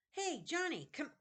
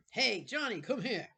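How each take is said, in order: First: High, loud first try at the bully's call; a false start in the wrong character voice; wrong voice for Sebastian. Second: Loud, high bully calling across the room; Sebastian calling out. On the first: Shown as a demonstration. Reader trying Sebastian's voice, wrong pitch first. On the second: Acted. Sebastian calling Jonathan across the room, loud bully call. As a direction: shout him over like the gang leader. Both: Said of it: "wrong voice".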